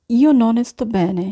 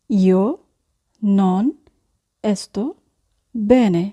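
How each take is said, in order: First: Said in the usual way. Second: "io", "non", "sto", "bene" each set apart by long pauses; slow dictation with pauses; word by word. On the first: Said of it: "teacher models phrase". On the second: Shown as a demonstration. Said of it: "teacher repeats word by word".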